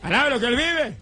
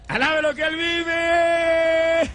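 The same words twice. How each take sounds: First: Said in the usual way. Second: "Alabe lo que Él vive" shouted much higher and louder, slow; fervent praise shout. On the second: Acted. Pastor urging the church to praise, "Alabe lo que Él vive" as a slow loud shout. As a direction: cry out "Alabe lo que Él vive" with all your strength.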